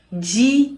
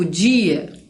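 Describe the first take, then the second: First: DIA as two beats, di, a; split into syllables. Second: Said in the usual way. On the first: Shown as a demonstration. Teacher showing the word can be separated, dia split in two. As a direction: separate dia into a long di, then a. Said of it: "a gente consegue separar". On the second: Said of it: "uma tônica e uma átona".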